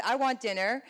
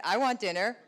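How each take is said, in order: First: Said in the usual way. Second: Echoing the line through a laugh; mock husband copying her, laughing; parroting, laughing. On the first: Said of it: "So imagine I said". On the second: Shown as a demonstration. Wife imagining husband parroting her, with a laugh. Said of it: "and my husband said".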